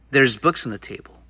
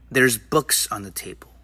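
First: The words 'there are' are contracted to 'there's'. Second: The same.

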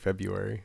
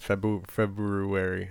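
First: The first R sound is dropped. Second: The first R sound is clearly pronounced. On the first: "I think I say February" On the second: "I don't think I've ever said February"

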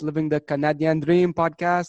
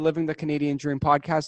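First: It is said in a French-Canadian accent. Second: It is said in the speaker's plain accent.

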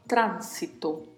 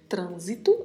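First: The first vowel a is open. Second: The first vowel a is closed. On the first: "em espanhol vamos falar tránsito" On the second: "Falamos trânsito em português"

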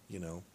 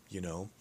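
Both takes have the same delivery.

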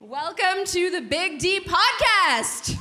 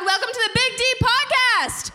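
First: It is said at a quieter volume. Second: It is said at a louder volume.

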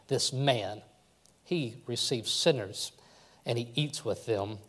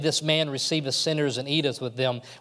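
First: It is said scornfully, like a grumbling complaint. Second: It is said happily, with a smile.

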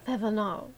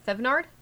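First: The name is said with a gurgly French sound. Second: The name is said with a plain English sound. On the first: The speaker calls it right. "That's better" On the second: The speaker calls it wrong. "That doesn't sound French"

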